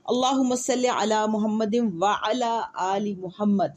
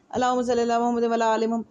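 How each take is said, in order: First: Slow, deliberate "اللہم صلی علی محمد وعلی آل محمد"; careful recitation. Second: Quick "اللہم صلی علی محمد" with "وعلی آل" run together as "ولا آل"; careless recitation. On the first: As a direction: recite "وعلی آل محمد" slowly with every sound clear. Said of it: "اہتمام نہیں کرتے". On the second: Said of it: "ولا آل محمد کا مطلب". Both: Shown as a demonstration.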